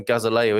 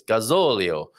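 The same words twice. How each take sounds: First: Said in the usual way. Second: Gazolio with the stressed "zo" drawn out; stress on the right syllable. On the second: Shown as a demonstration. Host corrects himself on Portuguese, Gazolio stressed on "zo". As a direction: lean on the ZO in Gazolio. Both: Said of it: "get the emphasis on the right syllable".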